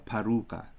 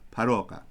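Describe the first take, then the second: First: The vowel after the r is an oo sound. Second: The vowel after the r is an o sound. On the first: The speaker calls it wrong. "It's more sloppy, but you'll hear people say for Savior" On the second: The speaker calls it right. "properly, it would be"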